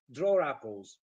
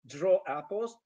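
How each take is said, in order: First: "draw apples" linked as "draw-rapples"; "draw apples" run together with an r, lower; intrusive r. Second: Said in the usual way. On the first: Shown as a demonstration. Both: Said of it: "but in fast speech".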